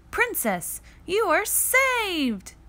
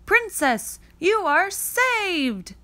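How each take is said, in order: First: High, slow triumphant hero; hero's rescue line. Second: High, slow rescuing cry; mock heroic shout. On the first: Acted. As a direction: announce the rescue proudly. Cat boy rescues princess. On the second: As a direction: proclaim the rescue like a stage prince. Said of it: "he'd shout".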